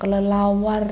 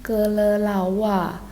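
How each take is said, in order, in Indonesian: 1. Bunyi R di akhir jelas diucapkan. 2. Bunyi R di akhir dihilangkan.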